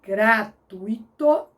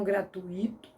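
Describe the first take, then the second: First: Gratuito slowly as gra-TÚI-to; stress on TUI in gratuito. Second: Gratuito as gra-tu-Í-to; stress on the I in gratuito. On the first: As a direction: sound out gratuito, UI in one syllable. (gratuito devagar, com tônica no U) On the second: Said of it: "e não gratuito". (gratuito com hiato e tônica no I) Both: Shown as a demonstration.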